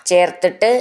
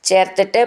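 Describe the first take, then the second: The two takes are said the same way.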